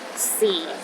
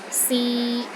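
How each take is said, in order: First: The pitch is at its very lowest. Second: The pitch is mid and steady. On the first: "The fourth tone is the lowest tone" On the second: "Pronounce in the middle of your range and it is steady"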